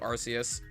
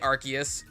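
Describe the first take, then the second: First: The middle consonant is an S sound. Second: The middle consonant is not an S sound. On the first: The speaker says it this way. "I say it with, like, the S sound" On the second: Some other people say it this way. "some people say Arceus"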